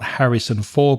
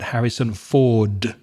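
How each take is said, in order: First: The final D sound is left off. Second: The final D sound is clearly pronounced. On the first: The speaker calls it wrong. "she forgets that final consonant sound, the D at the end. So not" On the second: The speaker calls it right.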